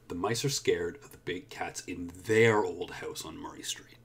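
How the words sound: The word 'their' is stressed. "so I stressed there"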